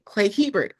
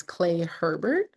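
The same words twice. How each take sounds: First: "Hebert" said HEE-bert, no r in the first syllable; "Clay Hebert" with "Hebert" as HEE-bert, stress on the first syllable; correct name. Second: "Herbert" said as HER-bert, with a rhotic first syllable; "Clay Herbert" with "Herbert" as in the first name Herbert; wrong name. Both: Real, not acted. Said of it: "I hate when I butcher names".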